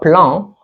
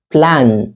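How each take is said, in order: First: The final n is not pronounced. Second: The final n is clearly pronounced. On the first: The speaker calls it wrong. "On ne dit pas plan" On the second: The speaker calls it right. "on prononce le N ici"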